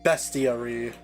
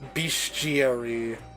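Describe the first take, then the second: First: The first syllable sounds like best. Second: The first syllable sounds like beast.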